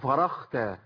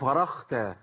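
First: The middle consonant is a voiceless kh sound. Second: The middle consonant is a voiceless kh sound.

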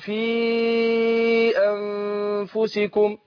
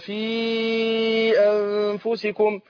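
First: The vowel of 'fi' is stretched to four beats. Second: The vowel of 'fi' is kept short. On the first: "اللي هيمد مثلا أربع حركات" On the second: "اللي هيخسر"

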